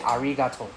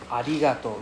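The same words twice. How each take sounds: First: The middle R is a strong English R. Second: The middle R is close to an L. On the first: It sounds like a foreigner. The speaker calls it wrong. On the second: It sounds native. The speaker calls it right.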